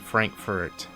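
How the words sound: It is said with an American pronunciation. The speaker calls it wrong. "most most U S Americans would pronounce it probably"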